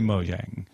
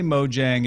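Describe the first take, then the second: First: The name is said with a Swedish pronunciation. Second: The name is said with an English pronunciation. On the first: "If you're speaking Swedish, say Mojang" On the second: "if you're speaking English, say Mojang"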